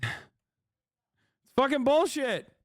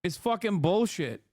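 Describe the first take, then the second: First: Sigh, then drag it out slow and high; a hammed-up groan of despair, much slower; exaggerated exasperation. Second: Said in the usual way. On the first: Shown as a demonstration. Streamer mock-complaining about no Russian money, drawn-out high exasperated whine.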